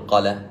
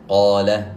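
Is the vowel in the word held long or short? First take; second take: short; long. First: The vowel is cut short. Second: The vowel is drawn out long. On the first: The speaker calls it wrong. "لا نقول قال" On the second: The speaker calls it right. "أتينا بمد"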